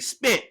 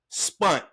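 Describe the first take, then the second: First: The vowel sounds like 'eh', as in 'spent'. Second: The vowel sounds like 'uh', as in 'spunt'. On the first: The speaker calls it right. "we say spent" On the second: The speaker calls it wrong. "but we don't say spunt"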